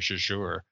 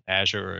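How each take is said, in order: First: The stress is on the second syllable. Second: The stress is on the first syllable. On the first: "or the second one" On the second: "accent the first syllable"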